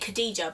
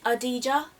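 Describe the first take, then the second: First: The name begins with a hard K sound. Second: The name begins with a vowel sound. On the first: This is how people guess it from the spelling. The speaker calls it wrong. "everyone, if you read it, you'd say" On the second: This is how the name is really said. The speaker calls it right. "it's actually ... silent K, silent H"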